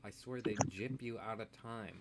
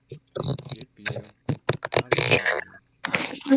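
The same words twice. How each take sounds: First: Said in the usual way. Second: Dramatic drawn-out. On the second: Acted. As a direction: drag out each word in mock outrage. Dramatic drawn-out repeat of complaint.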